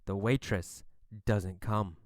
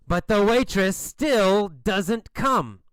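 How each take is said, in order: First: Low, hushed storytelling; understated letdown. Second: Slow, emphatic "still doesn't come"; drawn-out exasperation. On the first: Narrator tells children the waitress is missing, low and understated. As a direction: state the disappointment quietly and low. First failed wait, understated. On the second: Narrator stresses the endless wait, "still" and "come" drawn out in exasperation. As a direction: lean hard on "still" and drag out "come". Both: A narrator's reading.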